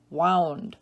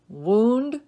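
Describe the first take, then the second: First: Wound as WOWND, falling; ow vowel. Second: Wound as WOOND, rising; oo vowel. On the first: Teacher giving other pronunciation, wound as WOWND. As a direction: say wound rhyming with sound. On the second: Teacher reading word list to students, wound as WOOND. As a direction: say wound with a long oo. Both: Shown as a demonstration. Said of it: "give you both pronunciations".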